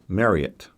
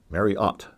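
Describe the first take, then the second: First: The final syllable is said lightly, without emphasis. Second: The final syllable 'ot' is clearly emphasized. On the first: This is how the speaker was used to saying it. "I was used to pronouncing it Marriott" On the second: This is how people at the park said it. "emphasizing the O T at the end"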